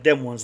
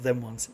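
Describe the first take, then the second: First: The word them begins with a D sound. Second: The word them begins with a TH sound. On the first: The speaker calls it right. "You got to put a D in them" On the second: The speaker calls it wrong. "not them ones"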